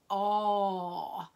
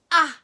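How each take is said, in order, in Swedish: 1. Vokalen är lång, med smala läppar. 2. Vokalen är kort och avbruten. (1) "Det är en smal mun" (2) "Då är det kort A"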